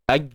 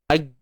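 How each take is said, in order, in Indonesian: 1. Suaranya ditahan dan tersangkut. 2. Suaranya mengalir bebas. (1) "tertahan suara tu, melekat" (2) "biarkan mengalir"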